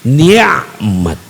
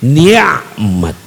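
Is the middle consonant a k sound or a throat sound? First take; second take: throat sound; throat sound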